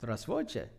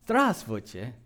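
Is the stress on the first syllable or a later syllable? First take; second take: later; first. First: The stress falls on a later syllable. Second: The stress falls on the first syllable. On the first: The speaker calls it wrong. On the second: The speaker calls it right. "yes, that's it"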